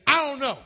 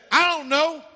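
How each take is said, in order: First: Cain dismissive again. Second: Sullen, brushing-off reply; a higher, defiant Cain shrugging God off; Cain's dismissive answer. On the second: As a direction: toss it off like you don't care. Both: Acted. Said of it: "That's exactly in the Hebrew".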